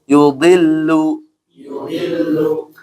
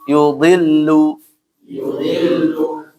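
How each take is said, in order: The two takes are said the same way.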